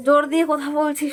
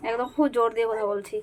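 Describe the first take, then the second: First: Louder, higher and insistent; speaking with force. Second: Said in the usual way. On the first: Real, not acted. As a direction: punch জোর দিয়ে কথা বলছি out loud and high.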